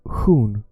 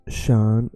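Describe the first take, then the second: First: The ending starts with a breathy hissing 'h' sound. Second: The ending starts with a soft 'sh' sound. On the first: "in Swedish is hun" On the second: "In English is shan"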